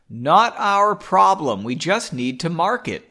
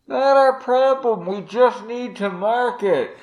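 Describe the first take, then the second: First: It is said in a plain, close voice. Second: It is said in a distant, phone-like voice.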